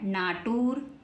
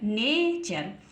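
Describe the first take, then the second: First: It is said 'naa-toor' with a 't' sound. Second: It is said 'nay-cher' with a 'ch' sound. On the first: The speaker calls it wrong. "तो ये गलत है ना" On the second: The speaker calls it right. "टी यू आर ई बन गया चर"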